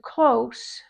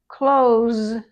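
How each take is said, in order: First: It ends with a voiceless s sound. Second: It ends with a voiced z sound. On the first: It is an adjective meaning near. "that's not a verb" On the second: It is a verb meaning to shut. "that's a verb"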